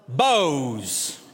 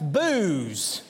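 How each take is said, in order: First: The name is one syllable rhyming with nose. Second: The name is one syllable rhyming with news. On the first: This is a pronunciation used by some locals. "here in Western Kentucky, there's some that would call it Bose" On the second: This is a pronunciation used in one particular town. "Or if you live in that town, perhaps it's Booze"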